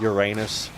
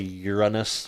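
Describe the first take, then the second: First: It ends with a sound like 'anus'. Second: It begins with a sound like 'urine'. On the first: It embraces the rude-sounding joke. "just to avoid literally saying Uranus" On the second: It avoids saying the rude-sounding version. "you're literally still saying urine"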